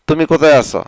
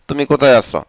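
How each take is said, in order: Both takes have the same delivery.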